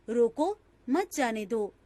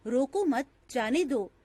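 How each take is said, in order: First: "रोको" set apart, then "मत जाने दो" as one phrase; pause after रोको. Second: "रोको मत" run together, then "जाने दो"; pause after मत. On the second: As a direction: join रोको to मत, break before जाने दो. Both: Shown as a demonstration. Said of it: "इन दोनों वाक्यों में अल्प विराम का प्रयोग स्थान बदल".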